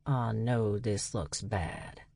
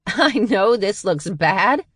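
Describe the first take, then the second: First: Much softer and slow, almost mumbled; quiet, sheepish. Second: Higher, louder, slow incredulous echo; mocking disbelief. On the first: Dutch owning up to the sisters, hushed and slow. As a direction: sheepishly admit it, low and hushed. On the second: Charlie mocking Dutch's excuse, laughing disbelief. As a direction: throw his words back at him, laughing. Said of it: "Charlie laughed". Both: A narrator's reading.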